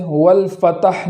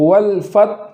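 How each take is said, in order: First: والفتح with ت given a vowel; wrong vowel on ta. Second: والفتح with ت closed, ح breathed; ت stopped, then ح heard; correct stop on ta. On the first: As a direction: mistaken والفتح, ت moving. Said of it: "نہ ہو". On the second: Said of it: "جزم ادا کرنے کا طریقہ". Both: Shown as a demonstration.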